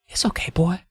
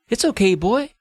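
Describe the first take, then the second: First: The line is said at a quieter volume. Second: The line is said at a louder volume. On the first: The speaker calls it right. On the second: The speaker calls it wrong.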